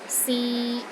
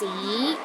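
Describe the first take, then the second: First: The pitch stays steady in the middle. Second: The pitch rises from low to high. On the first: To try. "a mid-tone. It's pronounced in the middle of your range and it is steady" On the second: History. "start with a low pitch and rises to a high pitch"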